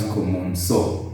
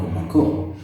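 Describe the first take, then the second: First: The C is pronounced like an S. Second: The C is pronounced like a K. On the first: The speaker calls it right. "because there is a sibilant on C" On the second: The speaker calls it wrong. "We don't want common co"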